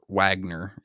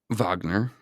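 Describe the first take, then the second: First: The name begins with a W sound. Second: The name begins with a V sound. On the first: "as we in the West like to pronounce it" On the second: "using the European pronunciation of the letter W"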